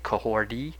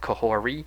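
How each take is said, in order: First: The name has a D sound before the last syllable. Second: The name has no D sound before the last syllable. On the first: This is how the show pronounces it. "they pronounce it as if she has a D" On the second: This follows the spelling. "I'm just going to pronounce it as the way it's spelled"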